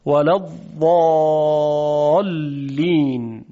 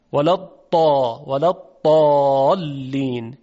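First: ولا الضالین slow, ض from the tongue's edge, not a d; drawn-out الضالین with the side-tongue ض; classical tajwid Dad. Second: ولا الضالین with ض said as a heavy emphatic dal, Egyptian style; slow Egyptian-accent الضالین with a dal sound; Egyptian Dad. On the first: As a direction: recite the old tajwid ض carefully. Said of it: "شما هم تمرین بکنید". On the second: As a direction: Egyptian reading, ض like a thick d. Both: Shown as a demonstration.

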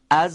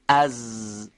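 First: از with the long z turning into a voiceless sss; z devoiced into s. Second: از with a long, buzzing z; sustained voiced z. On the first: Teacher showing how za becomes sin, buzz losing its voice. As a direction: hold the z of از, then switch the voice off into a hiss. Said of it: "اگر ارتعاش تارهای صوتی رو از حرف ز بگیریم". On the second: Teacher demonstrating za as a fricative, sustained buzzing z. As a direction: keep the z of از flowing with the voice on. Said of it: "یعنی صداش قطع نمیشه". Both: Shown as a demonstration.

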